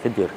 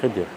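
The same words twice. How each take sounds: First: The name is said with an 'i' vowel: Khidir. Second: The name is said with an 'i' vowel: Khidir.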